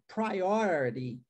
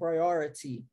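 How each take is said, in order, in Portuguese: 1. O último t é um tap rápido, parecido com um r. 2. O último t é um som de t claro. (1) "transformarmos esse último T em R" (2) "T com som de T mesmo"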